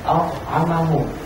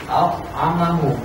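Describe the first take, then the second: Both takes have the same delivery.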